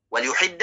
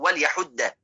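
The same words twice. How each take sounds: First: وليحد said as wa-l-yuhid, ya with u; وليحد with the ya voiced as yu; with damma on ya. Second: وليحد said as wa-l-yahudda, ya with a; وليحد with the ya voiced as ya; with fatha on ya. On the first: (وليحد بضم الياء) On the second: (وليحد بفتح الياء) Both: Shown as a demonstration. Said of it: "بضم الياء من حد السكين وبفتحها".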